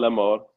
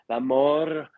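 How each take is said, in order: First: The R in 'mort' is said plainly. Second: The R in 'mort' is strongly emphasized. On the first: The word conveys no particular meaning. The speaker calls it wrong. "just like, no, la mort" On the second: The word carries a deeper intention. The speaker calls it right. "You can do the R for la mort"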